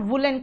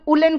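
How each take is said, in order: First: The word begins with a clear w sound. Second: The word begins with a vowel, no w. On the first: This is the British pronunciation. The speaker calls it right. "उसको आप वुडन और वुलन कहोगे क्योंकि आप American नहीं, आप British हो" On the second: This is the American pronunciation. The speaker calls it wrong. "कुछ लोग उलन कहते हैं"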